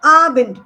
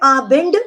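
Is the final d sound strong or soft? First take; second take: soft; strong. First: The final d sound is said very softly. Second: The final d sound is said strongly. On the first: The speaker calls it right. "उसको एंड पे ही छोड़ देंगे" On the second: The speaker calls it wrong. "विल not से आबिंड the sound"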